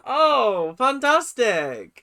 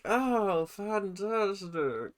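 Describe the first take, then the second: First: "fantastic" stretched slowly, loud and high with fake glee; loud sarcastic fantastic. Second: Dry sarcastic fantastic. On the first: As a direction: belt out "fantastic" as mock praise. Sarcastic praise of late rehearsal. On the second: Acted. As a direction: let "fantastic" sink in slow and dry. Sarcastic praise, quieter repeat.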